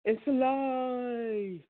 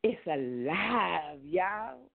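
First: High, long drawn-out monster-movie cry; horror movie line. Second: Slow, drawn-out southern twang; southern accent. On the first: Retold or imitated. Quoting a horror movie line to the flock, hammed-up eerie cry. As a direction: stretch it out like a horror film. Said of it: "and it said". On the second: Shown as a demonstration. Putting a different spin on it for the flock, southern accent. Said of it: "that's my southern accent".

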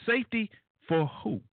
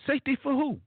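First: Said in the usual way. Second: "Safety for who?" pitched much higher in disbelief; incredulous question. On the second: Shown as a demonstration. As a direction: ask it again, higher and incredulous.

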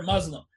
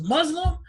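First: Resigned agreement. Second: Imitated guessing stranger. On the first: Retold or imitated. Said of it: "And I was like". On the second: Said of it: "He goes".

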